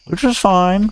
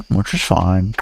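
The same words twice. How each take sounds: First: "Which is fine" in a much higher squeak. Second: Said in the usual way. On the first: Shown as a demonstration.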